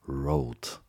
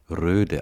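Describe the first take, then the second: First: The vowel is an English o, like road. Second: The vowel is a rounded front ö sound. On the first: The speaker calls it right. "also Englisch und ohne den norwegischen Umlaut" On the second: The speaker calls it wrong. "nicht Röde ausspricht"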